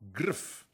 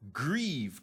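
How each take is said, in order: First: The word ends with a voiceless f sound. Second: The word ends with a voiced v sound. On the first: The speaker calls it wrong. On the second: The speaker calls it right.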